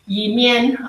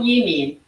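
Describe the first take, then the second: First: The second syllable sounds like 'mian'. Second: The second syllable sounds like 'min'. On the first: This is the Hakka pronunciation. "in Hakka it's Yimian" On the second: This is the Cantonese pronunciation. "in Cantonese it's called Yimin"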